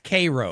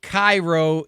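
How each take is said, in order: First: It is said the local Illinois way. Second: It is said like the Egyptian city's name. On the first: This is how the town itself is called. The speaker calls it right. "it's Cairo" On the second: Someone else said it this way. The speaker calls it wrong. "he calls it Cairo"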